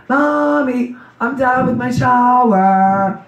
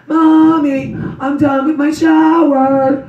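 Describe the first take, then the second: First: Put-on high, very slow child's call; little daughter calling. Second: Put-on high, slow child's call from upstairs; little daughter calling. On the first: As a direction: sing it out like a small girl upstairs. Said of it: "she'd be like". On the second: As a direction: call down like a small girl done bathing. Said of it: "she'd go". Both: Mother imitating her little daughter calling from the shower, high and slow.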